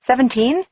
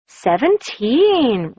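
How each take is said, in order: First: "Seventeen?" rising high in disbelief; stunned disbelief. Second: Surprised repeat. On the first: A narrator's reading. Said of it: "Did I hear him right?". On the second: Acted. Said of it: "Ruby repeated".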